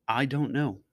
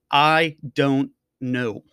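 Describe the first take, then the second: First: "I don't know" said softer, falling away; quiet repeat. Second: Drawn-out, slow "I don't know" with a falling end; slow resigned I don't know. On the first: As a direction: murmur "I don't know" to yourself, giving up. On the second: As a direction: let "I don't know" sag slowly into defeat. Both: Shown as a demonstration.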